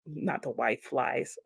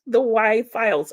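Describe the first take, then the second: First: "flies" said like the insect, soft and slow; misread title. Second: "files" said clearly as in folders; corrected title. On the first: Repeating her own misreading of the title. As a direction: read "Y flies" as in flying bugs, quietly. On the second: Correcting her misread show title for Susan. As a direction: stress the fixed word "files". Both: Shown as a demonstration.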